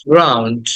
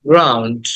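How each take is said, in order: The two takes are said the same way.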